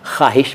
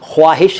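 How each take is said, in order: First: The word is said as it is spoken. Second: The word is said as it is spelled. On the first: This is how the word is actually said. "ख़्वाहिश बोलते हैं" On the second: This is how the word is written. "ख्वाहिश लिखते हैं"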